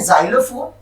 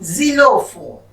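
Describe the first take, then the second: First: The first syllable has an 'ai' vowel. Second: The first syllable has an 'ee' vowel. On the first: This is the English reading of the word. "English में हम पढ़ते हैं जाइलोफोन" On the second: This is the French reading of the word. "French में ... इसको हम पढ़ेंगे जीलोफोन"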